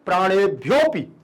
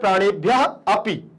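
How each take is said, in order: First: The 'a' of 'api' is hidden in the join. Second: The 'a' of 'api' is clearly heard. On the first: "सामने वाले को समझ में नहीं आना चाहिए कि आ को बोला जा रहा है" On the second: "बाहर का आदमी भी बता देगा कि यहां आ बोला जा रहा है"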